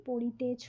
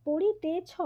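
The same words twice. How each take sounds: First: পড়িতেছ ending in a closed o, poṛite-chho; পড়িতেছ with final o in place of ô; as spoken. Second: পড়িতেছ ending in an open ô, poṛite-chhô; পড়িতেছ read by the letters, open final vowel; as written. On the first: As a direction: round the last vowel of পড়িতেছ to chho. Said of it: "কিন্তু আমরা বলি". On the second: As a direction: finish পড়িতেছ on chhô, as it is spelt. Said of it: "শেষের অটা কিন্তু আমরা ওকার রূপে উচ্চারণ করি". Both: Shown as a demonstration.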